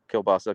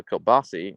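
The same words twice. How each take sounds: First: Said in the usual way. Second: "kielbasi" with an ee ending; regional pronunciation. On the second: Shown as a demonstration. Streamer reading a viewer's complaint about dialect, regional pronunciation. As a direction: say "kielbasi", last vowel ee rather than ah. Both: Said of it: "both call kielbasa kielbasi".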